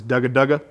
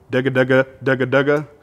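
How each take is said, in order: First: Dugga dugga at the call's front; dugga feed call, front of call. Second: Rolling dugga dugga from the back; dugga feed call, back of call. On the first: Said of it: "this is how they sound in the front of the call". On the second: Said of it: "There's two different ways you can do this". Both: Shown as a demonstration.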